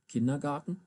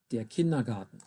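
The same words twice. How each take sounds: First: "Kindergarten" the American way, flap d and open a; American pronunciation. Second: "Kindergarten" in crisp German, clear d and short a; German pronunciation. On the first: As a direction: say "Kindergarten" like an American, KIN-der-gar-ten. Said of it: "Americans pronounce those". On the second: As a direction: say "der Kindergarten" the German way, KIN-duh-GAH-ten. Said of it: "I'm gonna pronounce the words". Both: Shown as a demonstration.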